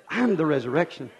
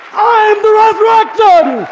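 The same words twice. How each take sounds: First: Said in the usual way. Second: Much higher and louder, slow and drawn out; shouted preacher's climax. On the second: Shown as a demonstration. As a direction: belt it to the back row. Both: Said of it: "repeated building".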